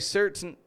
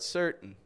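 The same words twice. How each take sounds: First: The T is fully released in the middle. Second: The T is a glottal stop in the middle. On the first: "They won't say certain" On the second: "but certain"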